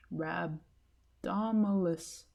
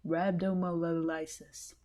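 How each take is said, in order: First: 1 sounding out again slowly. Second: 1 sounding it out. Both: Shown as a demonstration. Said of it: "What is that word?".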